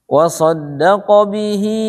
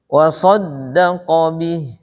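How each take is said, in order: First: The last word ends in a lengthened vowel. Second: The last word ends on a consonant. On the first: The reading continues into the next word. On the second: The reading stops here.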